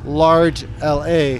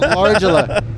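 First: It is said as a word plus spelled letters. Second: It is run together as one three-syllable word. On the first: The speaker calls it right. "It's Large LA" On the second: The speaker calls it wrong. "It's not Largela"

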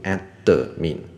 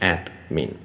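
First: The word has three syllables, a vowel after d. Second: The word has two syllables, no vowel after d. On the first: The speaker calls it wrong. "admin 就3 个音节了" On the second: The speaker calls it right. "理论上它只有2 个音节"

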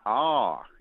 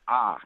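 First: The vowel glides into another sound. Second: The vowel stays flat and steady. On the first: The speaker calls it wrong. "It's not ah" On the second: The speaker calls it right. "A is ah. It doesn't glide"

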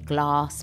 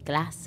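First: It is said in a London accent. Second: It is said in the speaker's own accent. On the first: This is how people in London say it. The speaker calls it wrong. "So they say glass" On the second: This is how the speaker's own community says it. The speaker calls it right. "We say glass"

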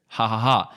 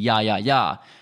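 First: Each syllable begins with an H sound. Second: Each syllable begins with a Y sound. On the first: "it's said how Jose is said, so ha ha ha" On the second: "it could be ya ya ya"

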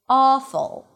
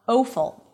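First: The first vowel is a steady open ah. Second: The first vowel glides like an oh sound. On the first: The speaker calls it right. "it is not a changing vowel" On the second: The speaker calls it wrong. "not awful"

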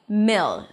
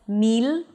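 First: The vowel is short, relaxed and lax. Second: The vowel is tense, like a long ee. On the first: The speaker calls it right. "a relaxed E sound" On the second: The speaker calls it wrong. "So it's not mil"

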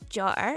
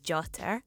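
First: The middle consonant is a glottal stop. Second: The middle consonant is a clear t sound. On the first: "You can say jotter" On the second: "instead of jotter"

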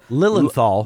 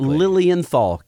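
First: The name is said without the extra vowel sounds. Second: The name is said with the extra vowel sounds. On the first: The speaker calls it wrong. "he made the common pronunciation mistake" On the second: The speaker calls it right. "there's another I and an E, and so it became"

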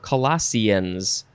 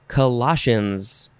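First: The ending sounds like "seans." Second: The ending sounds like "shuns." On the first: "or Seans"

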